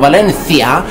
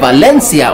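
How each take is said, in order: First: The middle consonant is a th sound. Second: The middle consonant is an s sound.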